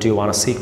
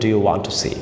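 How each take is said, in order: First: 'Want to' is reduced to 'wanna'. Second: 'Want to' is said as two full words. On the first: It is casual, said to a close friend. "Friend হলে বলবেন do you ওয়ানা see close friend" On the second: It is less casual, said to a friend. "একটু তুমি তুমি friend হলে বলবেন"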